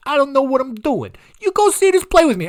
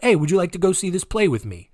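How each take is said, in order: First: Much higher, louder put-on Trump voice; deliberately bad Trump voice, pitched way up; bad Donald Trump impression. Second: Said in the usual way. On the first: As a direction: push a clumsy mock Trump invite. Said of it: "This is a baddie Trump impression". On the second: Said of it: "it was just like".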